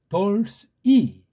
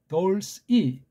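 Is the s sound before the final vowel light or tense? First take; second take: light; light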